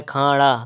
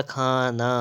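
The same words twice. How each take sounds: First: खाड़ा with a flapped ṇ; tongue flicked back in खाड़ा; wrong pronunciation. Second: खाना with a dental n; plain n in खाना; correct pronunciation. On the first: Teacher reading the misspelling, खाड़ा with retroflex flap. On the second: Teacher correcting, खाना with dental n. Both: Shown as a demonstration. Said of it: "तो हो जाएगा खाना".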